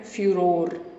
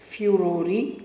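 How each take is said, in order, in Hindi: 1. शब्द के अंत में 'r' ध्वनि है। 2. शब्द के अंत में एक अतिरिक्त स्वर ध्वनि है। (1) "इस वर्ड को दो तरीके से प्रोनाउंस किया जाता है" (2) "इस वर्ड को दो तरीके से प्रोनाउंस किया जाता है"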